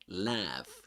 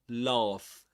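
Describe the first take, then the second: First: It has a flatter, smiling American vowel. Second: It has a long open British vowel. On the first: "But in American English, it's laugh" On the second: "In British English, it's the, the lips are neutral. It's laugh"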